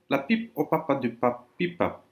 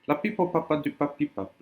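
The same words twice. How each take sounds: First: It is said at a normal pace. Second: It is said as fast as possible. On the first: "Je répète" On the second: "trois fois le plus vite possible ... Pareil à moi"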